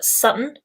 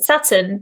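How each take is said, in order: First: The T sounds in the middle are dropped. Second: The T sounds in the middle are pronounced.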